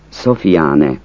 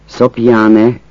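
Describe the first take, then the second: First: Szofiáne with an f, So-fi-á-ne; Szofiáne variant. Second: Szopjáne with p and j, Szop-yá-ne; Szopjáne variant. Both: Shown as a demonstration. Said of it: "Azt a kiejtés változatot".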